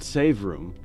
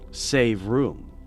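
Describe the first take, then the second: First: The stress falls on the word save. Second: The stress falls on the word room. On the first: It names a room where you save the game. "like a save room" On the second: It means you need to keep space free. "as in you need to save room"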